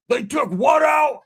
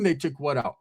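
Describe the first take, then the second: First: Slow, high, loud disbelief; imitated shocked yell; outraged shout. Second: Said in the usual way. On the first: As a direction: holler it like a furious patient. Enraged friend shouts in disbelief.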